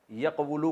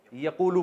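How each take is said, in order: First: یقولو sounded yaq-wu-lu; original uncontracted form. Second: یقولو sounded ya-qoo-lu; contracted reading. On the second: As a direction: drop the w in یقولو for a long oo. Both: Shown as a demonstration. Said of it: "یقولو کو یقولو پڑھتے ہیں".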